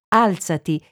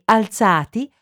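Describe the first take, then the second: First: The stress is on the first syllable. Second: The stress is on the second syllable. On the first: It is a command to get up. "alzati, imperativo, seconda persona singolare" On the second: It describes people who got up. "E alzati, participio passato"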